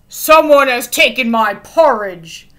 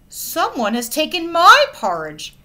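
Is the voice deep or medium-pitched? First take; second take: deep; medium. First: It is said in a big, deep voice. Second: It is said in a medium-pitched voice. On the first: "bellowed in his big deep voice" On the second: "she said in her medium voice"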